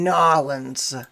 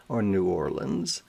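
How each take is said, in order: First: "Nawlins" squeezed into two syllables, NAW-lins; "Nawlins" swallowed into NAW-lins; local pronunciation. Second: Said in the usual way. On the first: Shown as a demonstration.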